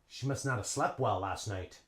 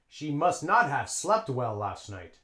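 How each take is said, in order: First: The word have is reduced, like nada. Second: The word have is said fully and clearly. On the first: The speaker calls it right. "A native English speaker would say" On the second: The speaker calls it wrong. "Native English speaker would not say that"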